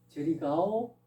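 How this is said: It is said as a question. The speaker asks if the listener is going there. "묻는 거죠. 의문문이죠"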